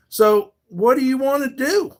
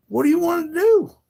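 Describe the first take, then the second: First: Challenging. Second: Whispered, higher taunt; mock whisper. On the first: Real, not acted. Challenging a threatening troll. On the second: Streamer taunts the troll who threatened him, whispered mockery. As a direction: hiss the dare back at him.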